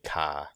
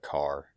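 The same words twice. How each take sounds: First: The final R is dropped, Maine style. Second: The final R is clearly pronounced. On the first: "Maine has, it's just a weird twang to it, like you say car" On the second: "instead of car"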